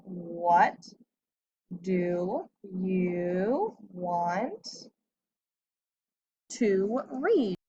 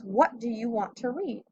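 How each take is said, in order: First: Very slow, every word drawn out as if written on the board; said very slowly while writing. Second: Said in the usual way. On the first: Shown as a demonstration. Teacher writing the sentence out for the class, very slow and drawn out. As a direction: stretch "What do you want to read?" out word by word, pausing as the pen moves. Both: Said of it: "So I need to do my capital W".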